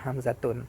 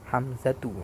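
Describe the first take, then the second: First: The name ends with an added n sound. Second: The name ends on a vowel, no final n. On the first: The speaker calls it wrong. "itu tidak bisa Hamzatun" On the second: The speaker calls it right. "Hamzatu bacanya"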